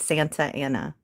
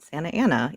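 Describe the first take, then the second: First: The t in the middle is clearly pronounced. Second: The t in the middle is dropped. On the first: "even though it's Santa Ana" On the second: "We call it Santa Ana"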